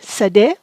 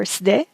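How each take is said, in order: First: "sade" with a vowel between s and d; two-syllable variant. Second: "sde" with s run straight into d; one-syllable variant. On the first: Teacher offers learners another form of field, two-syllable variant. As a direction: open "sade" out into sa-DE. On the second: Teacher offers learners the short form of field, one-syllable variant. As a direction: say "sde" without a vowel after the s. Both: Shown as a demonstration. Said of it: "or sde".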